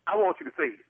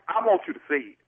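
First: Insisting, higher. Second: Said in the usual way. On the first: Real, not acted. [name] repeats his demand much higher.

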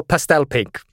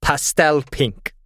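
First: "pastel pink" quicker, with PASTEL stressed; insistent correction. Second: "pastel pink" drawn out slowly; slow, deliberate choice. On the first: Player correcting the game master's candle colour, insistent stress on "pastel". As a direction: correct them firmly, leaning on "pastel". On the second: Player choosing a candle colour for the game master, slow and deliberate "pastel pink". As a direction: announce "pastel pink" word by word, savouring each. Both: Real, not acted.

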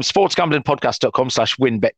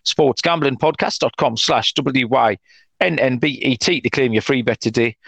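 First: "win bet" spoken as two plain words. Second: "W Y N N B E T" spelled letter by letter. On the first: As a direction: say "sports gambling podcast dot com slash win bet" with "win bet" as words. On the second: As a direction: spell "W Y N N B E T" out one letter at a time. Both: Shown as a demonstration.

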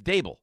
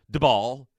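First: Daboll said as "DAY-bull", like "table"; correct pronunciation. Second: Daboll said as "duh-BALL" with a short first vowel; mispronounced Daboll, "duh-BALL"; wrong pronunciation. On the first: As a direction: Daboll with the stress on the first syllable, rhyming with table. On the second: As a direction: Daboll with the stress on the second syllable, the wrong way. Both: Shown as a demonstration. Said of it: "issue pronouncing his name properly".

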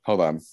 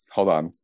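The two takes are said the same way.

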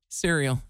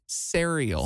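First: Cereal said as "SEER-ee-ul"; correct pronunciation. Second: Cereal said as "serry-al"; old mispronunciation. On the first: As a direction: cereal with EE in the first syllable. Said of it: "pronouncing the word cereal wrong". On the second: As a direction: cereal with EH in the first syllable, drawn out. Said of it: "I was calling it cereal". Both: Shown as a demonstration.

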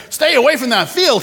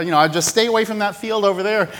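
First: Higher and louder, leaning on field; firm repeated warning. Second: Offhand, fast friendly caution; casual rancher warning. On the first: Rancher repeats his warning to the agent, firmer and louder. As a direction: repeat it so it sticks, pressing field. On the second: Rancher casually warns the agent, offhand. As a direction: toss the warning off lightly. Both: Retold or imitated. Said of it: "the rancher's like".

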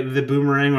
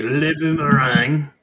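First: Said in the usual way. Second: Slow French-Canadian accent on Le Boomerang. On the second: Shown as a demonstration. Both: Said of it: "I'm gonna use a French-Canadian accent".

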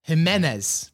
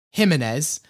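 First: "Jimenez" stressed in the middle, him-EN-ez; stress on middle syllable. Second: "Jimenez" stressed on JIM, HIM-in-ez; stress on first syllable. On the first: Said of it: "with the stress on the middle syllable". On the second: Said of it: "with the stress on the first syllable". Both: Shown as a demonstration.

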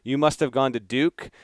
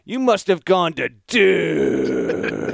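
First: Said in the usual way. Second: "You must have gone to Duke" slow and louder, leaning on "must"; mock all-caps read. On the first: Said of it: "a person saying". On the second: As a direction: read "Duke" as if written in capitals, slowly. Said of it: "So it's".

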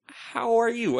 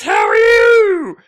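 First: Higher-pitched, at normal volume; retold timid reply. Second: Very high, slow, loud mock holler; shouted greeting, imitated. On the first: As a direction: return the greeting tentatively, acted out. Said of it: "And I timidly take two steps". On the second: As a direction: stretch it into a screeching call. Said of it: "I hear this voice say".

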